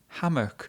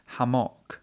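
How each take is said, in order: First: Only the first syllable is stressed. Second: Both syllables are stressed equally. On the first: The speaker calls it right. "with the first syllable stressed" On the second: The speaker calls it wrong. "she stresses both syllables in the word"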